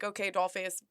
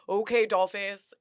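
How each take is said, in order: First: It is said in a plain, neutral tone. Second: It is said with heavy sarcasm.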